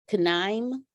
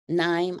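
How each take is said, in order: First: The initial K is sounded. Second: The initial K is silent.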